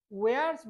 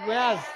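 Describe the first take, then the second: First: Said in the usual way. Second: ওয়্যারস ending in a voiced z; ওয়্যারস with a clear z at the end; z sound on s. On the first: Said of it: "ওয়্যারস বলি আমরা". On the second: Shown as a demonstration. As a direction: buzz the final s of ওয়্যারস. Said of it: "হবে কি?".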